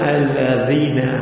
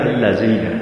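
First: The middle consonant is a dh sound. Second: The middle consonant is a z sound. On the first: The speaker calls it right. "بگو الذین" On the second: The speaker calls it wrong. "زال را نمیتوند تلفظ کند"

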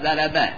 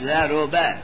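First: The r sound is followed by a. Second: The r sound is followed by u. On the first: "به فتح را" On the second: "به زمش"

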